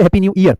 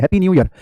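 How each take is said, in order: First: ईयर stretched as "ee-yər" like ear; mock the mistake, ईयर said "ee-yər" with a long ee; wrong ear sound. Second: ईयर said short as "yər", one glide; correct year. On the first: Teacher demonstrates the wrong ear pronunciation to students. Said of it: "ये नहीं कहते". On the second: Teacher models the right way to wish happy new year, short "yər". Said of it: "इसके लिए हम ईयर नहीं बोलते, सिर्फ ईयर बोलते हैं". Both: Shown as a demonstration.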